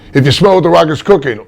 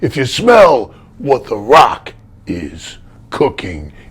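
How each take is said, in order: First: The pitch stays mostly level throughout. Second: The pitch dips and rises throughout. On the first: The speaker calls it wrong. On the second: The speaker calls it right.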